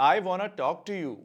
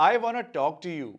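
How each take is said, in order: The two takes are said the same way.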